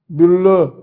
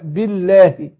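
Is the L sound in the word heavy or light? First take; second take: heavy; light. First: The L sound is heavy and thick. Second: The L sound is light and thin. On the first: The speaker calls it wrong. "يقول بالله" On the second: The speaker calls it right. "اللام مرققة"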